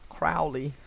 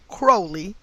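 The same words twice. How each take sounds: First: Crowley with the "ow" of "cow"; "Crowley" to rhyme with "foully", self-correcting; Crowley corrected. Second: Crowley said like "crow", with the long O sound; "Crowley" to rhyme with "slowly"; Crowley said wrong. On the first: Fixing the occultist's name, "Crowley" said like "cow". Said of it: "Aleister Crowley". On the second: Reading the name out, the first try says "Crowley" like "crow". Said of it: "Crowley, probably Crowley". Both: Real, not acted.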